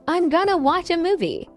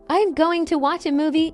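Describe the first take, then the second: First: 'Going to' is reduced to 'gonna'. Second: 'Going to' is said in full. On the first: "these are shortened versions of going to" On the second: "instead of saying"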